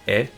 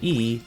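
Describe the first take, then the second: First: The letter is said with a Japanese 'eh' vowel. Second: The letter is said with an English 'ee' vowel. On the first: "The Japanese version of E" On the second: "if you pronounce it E, they think you mean I"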